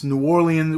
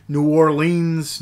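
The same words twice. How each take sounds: First: Orleans in three quicker syllables, stress up front, "OR-lee-un"; New Orleans as OR-lee-un. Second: Orleans in two beats, "or-LEENZ", drawn out slowly; New Orleans as Or-LEENS. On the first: Reviewer offering another name for the city, New Orleans said OR-lee-un. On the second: Reviewer unsure of the city's name, New Orleans said Or-LEENS. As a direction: say Orleans with a long "leens" ending. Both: Shown as a demonstration. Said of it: "whatever you wanna call it".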